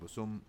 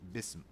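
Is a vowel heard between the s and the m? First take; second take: yes; no. First: 'U' vowels are used, one between s and m. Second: The s goes straight into the m. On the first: The speaker calls it wrong. "I don't say" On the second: The speaker calls it right. "So bism"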